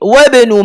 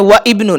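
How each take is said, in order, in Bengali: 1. 'wa' সরাসরি 'bnu'-র সাথে মিশে যায়, মাঝে কোনো 'i' নেই। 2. 'wa'-র পরে 'ibnu'-র 'i' আলাদাভাবে উচ্চারিত হয়। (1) "সরাসরি ওয়াবের সাথে মিলিয়ে" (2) "ইবনু বলা যাবে না"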